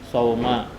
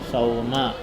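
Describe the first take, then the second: Both takes have the same delivery.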